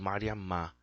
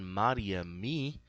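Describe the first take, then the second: First: The word ends with an 'a' vowel. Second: The word ends with an 'i' vowel. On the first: The speaker calls it right. "aí vai ser Mariamá" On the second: The speaker calls it wrong. "se eu falo an Mariami, não"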